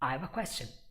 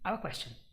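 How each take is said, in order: First: Fast speech with 'have' only partly reduced. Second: Faster speech with 'have' gone, leaving only 'of'. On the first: "this is fourth gear" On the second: "In fifth gear, also the have disappears entirely, and we only have of"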